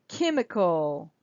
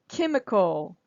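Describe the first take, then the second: Both takes have the same delivery.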